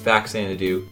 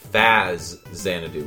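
First: The middle x is said as ks. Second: The middle x is said as z. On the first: This is the American pronunciation. "The American version is Faxanadu" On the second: This is the Japanese pronunciation. "is Faxanadu with a Z"

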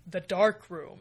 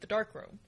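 First: It is said with dark, sinister emphasis. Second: It is said plainly, with no dramatic emphasis. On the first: The place is ominous and threatening. The speaker calls it wrong. "as though there's a sinister emphasis to it" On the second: It is simply a room for developing film. The speaker calls it right. "I think it's literally the dark room"

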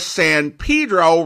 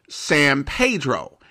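First: The name is pronounced the English way. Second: The name is pronounced the Spanish way. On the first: "the prevalent pronunciation of San Pedro" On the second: "the Spanish San Pedro"

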